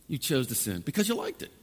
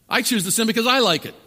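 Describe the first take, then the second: First: Said in the usual way. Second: I punched high and loud; stress on I. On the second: Shown as a demonstration. Preacher owning his sin to congregation, stress on I. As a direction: hit I hard, louder and higher. Turns the accusation on himself.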